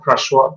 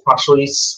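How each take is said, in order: First: The name ends on a vowel, no s sound. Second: The name ends with an audible s sound. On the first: The speaker calls it right. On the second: The speaker calls it wrong.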